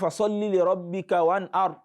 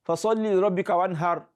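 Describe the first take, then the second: First: The last word has a glottal catch instead. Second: The last word has a soft, plain h sound. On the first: "make it sound different from Hamza. So don't say" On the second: "some people even pronounce ha"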